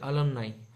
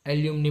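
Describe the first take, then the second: First: The word ends with an 'eye' sound. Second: The word ends with an 'ee' sound. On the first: The speaker calls it right. "उसका pronunciation होता है अलमनाई, जो perfect होता है" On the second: The speaker calls it wrong. "काफ़ी students ऐसा भी बोलते हैं"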